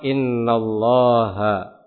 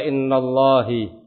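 First: The word ends in an a vowel. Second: The word ends in an i vowel. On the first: The speaker calls it right. "Sehingga dibacalah innallaha" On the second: The speaker calls it wrong. "Atau ada yang membaca innallahi"

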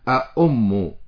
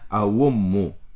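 First: The middle sound is a clear glottal stop. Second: The middle sound is a smooth w sound. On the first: "فآتي بالهمزة فأقول فيها أأم" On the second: "أن أقلبها إلى الواو لأنها مضمومة، فأقول فيها أوم"

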